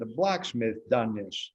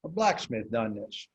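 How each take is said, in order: First: Slow, lightly voiced old farmer; old farmer's talk. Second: Slow, lightly voiced old farmer; a hint of the old farmer, taken slowly; old farmer's talk. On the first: Imitating the old farmer next door, slow and lightly voiced. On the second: Repeating the old farmer's words in a slow, light imitation. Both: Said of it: "That's how he talked".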